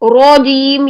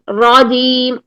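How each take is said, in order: First: The first vowel is rounded, like an o. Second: The first vowel is open, with unrounded lips. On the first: The speaker calls it wrong. "इसमें वाव की साउंड पैदा हो रही है" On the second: The speaker calls it right. "हमने आ आ की साउंड रखनी है"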